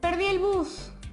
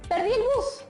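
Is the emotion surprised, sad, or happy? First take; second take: sad; surprised. First: It is said with sadness. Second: It is said with surprise.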